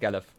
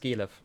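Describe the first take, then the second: First: The first vowel is not a long e. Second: The first vowel is a long e sound. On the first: This is how Americans usually say the name. The speaker calls it wrong. "Galev is how all Americans pronounce it" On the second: This is the name owner's own pronunciation. The speaker calls it right. "I pronounce it Gelev. So you have like the uh, long e sound in the beginning"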